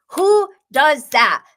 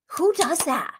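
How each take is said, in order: First: "Who does that" slow, high and loud; emphatic disbelief. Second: High-pitched incredulous question. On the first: Host repeating her question about "Who does that", slow emphatic disbelief. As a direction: punch out each word of "Who does that", drawn out. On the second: Host reacting to a scary cast member, incredulous. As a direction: ask it in sheer disbelief, pitched up. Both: Real, not acted.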